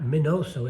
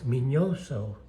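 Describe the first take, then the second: First: The middle consonant is a plain n sound. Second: The middle consonant is an ny sound. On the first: The speaker calls it wrong. "it's not Minoso" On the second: The speaker calls it right. "that's how you pronounce it in Spanish"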